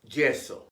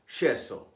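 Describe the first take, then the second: First: The Y sounds like English J. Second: The Y sounds like Argentine SH or ZH.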